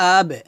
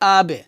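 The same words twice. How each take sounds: The two takes are said the same way.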